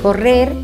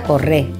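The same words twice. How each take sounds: First: The word ends with an r sound. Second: The word ends on a vowel. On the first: "en lugar de correr" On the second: "pérdida de consonantes L y R finales"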